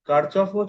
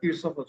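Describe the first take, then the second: First: It sounds like kar-chof, with a ch sound. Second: It sounds like kir-shof, with an sh sound. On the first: "কার্চফও চলে কথাটা" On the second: "কিরশফও চলে"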